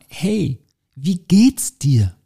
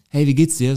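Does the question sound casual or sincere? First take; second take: sincere; casual. First: It is asked with sincere, genuine interest. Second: It is asked casually, as a routine greeting.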